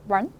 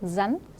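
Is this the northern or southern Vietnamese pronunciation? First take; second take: southern; northern. First: The word starts with an r sound. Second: The word starts with a z-like sound. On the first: "남쪽에서는 run, run, 리을로 읽습니다" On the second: "북쪽에서는 산, 잔, 지읒을 읽고요"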